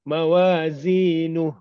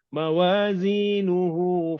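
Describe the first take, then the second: First: The final vowel is dropped, ending on h. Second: The final vowel is held long. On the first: The reader stops at this word. "dibaca sukun" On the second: The reading continues on. "kalau kita baca teruskan"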